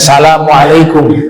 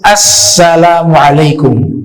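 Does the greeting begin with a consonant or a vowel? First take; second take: consonant; vowel. First: It begins directly with the s sound. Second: It begins with a vowel before the s sound. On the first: The speaker calls it wrong. "jangan salamualaikum" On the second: The speaker calls it right. "dibacanya itu assalamualaikum"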